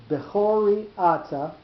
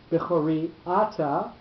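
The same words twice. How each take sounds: First: Slow, higher Bechori Ata, be-CHO-ri A-ta; accent pushed back. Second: Bechori Ata as be-cho-RI A-ta, stresses colliding; two accents together. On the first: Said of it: "go to that middle syllable". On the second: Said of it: "the two accented syllables together". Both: Shown as a demonstration.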